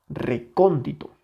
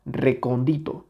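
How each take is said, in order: First: Recóndito with a clear beat on CON; stress on tonic syllable. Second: Recóndito said as recon-DI-to, rising; stress removed. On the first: (recóndito con fuerza en CÓN) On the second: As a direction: put the beat of recóndito on DI, not CON. (recóndito acentuado en DI, como recondíto) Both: Shown as a demonstration. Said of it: "la que suena con mayor intensidad".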